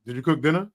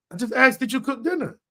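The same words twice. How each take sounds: First: Said in the usual way. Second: Higher, pointed did you cook dinner, stressing asked; pointed irritated repeat. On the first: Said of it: "like this, like this". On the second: Shown as a demonstration. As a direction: repeat the question like you're annoyed you had to. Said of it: "that's what just happened right there".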